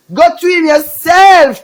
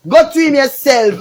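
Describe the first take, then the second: First: Loud taunt. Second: Said in the usual way. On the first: Real, not acted. Taunting a rival in a rant.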